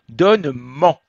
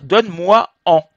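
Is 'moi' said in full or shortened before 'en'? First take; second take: shortened; full. First: Moi is shortened to m before en. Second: Moi is said in full before en. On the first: The speaker calls it right. "on ne dit jamais deux voyelles côte à côte" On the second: The speaker calls it wrong. "ça ne marche pas"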